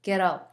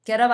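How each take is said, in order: First: "get up" with a smaller mouth opening; corrected "get up". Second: "Get up" with the mouth opened too wide; louder, over-open vowels on "Get up"; wrong "Get up". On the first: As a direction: narrower vowels, falling pitch on "get up". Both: Shown as a demonstration. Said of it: "입을 조금만 작게 벌려줍니다".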